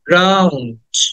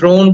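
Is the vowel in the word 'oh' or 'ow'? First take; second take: ow; oh. First: The vowel is 'ow', like 'down'. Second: The vowel is 'oh', like 'drone'. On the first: The speaker calls it right. "But উচ্চারণটা হবে drowned" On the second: The speaker calls it wrong. "এটাকে অনেকে ড্রোন বলে"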